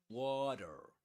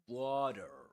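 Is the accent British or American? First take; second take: American; American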